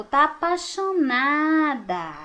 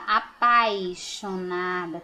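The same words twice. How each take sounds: First: Slow, "apaixonada" said as "apachonada", no i glide; dropped i. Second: Slow "apaixonada" with a clear i glide, "a-pai-xo-na-da"; careful correct form. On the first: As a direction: drawl "tá apaixonada" eating the i. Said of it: "Olha bem como que ela falou". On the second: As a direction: say "apaixonada" slowly with the i heard. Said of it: "a palavra correta é apaixonada". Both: Shown as a demonstration.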